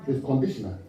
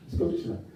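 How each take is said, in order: First: Said in the usual way. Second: Breathy whisper of It's conditional; whispered repeat. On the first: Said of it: "It's what?". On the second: Shown as a demonstration. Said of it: "repeated quietly".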